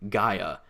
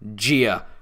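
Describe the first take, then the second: First: The first syllable sounds like 'guy'. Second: The first syllable sounds like 'gee'. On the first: The speaker calls it right. "It's Cyclopses and Gaia" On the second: The speaker calls it wrong. "they call it Gia"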